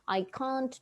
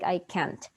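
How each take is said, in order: First: It is said in a British accent. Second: It is said in an American accent. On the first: "in British English, it was okay to say" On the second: "But in American English, it's like"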